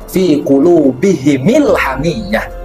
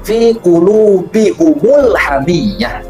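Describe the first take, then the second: First: Both the h and m carry an i vowel. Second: Both the h and m carry a u vowel. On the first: This is one recognized reading of the verse. "membacanya dengan mengkasrohkan mim jamaknya" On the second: This is another recognized reading of the verse. "membacanya dengan mendomahkan mim jamak"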